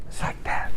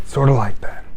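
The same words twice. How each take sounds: First: Soft breathy It's like that; whispered aside. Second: Said in the usual way. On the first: Acted. Preacher closing the salesman story, whispered aside. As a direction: drop to a whisper for the point.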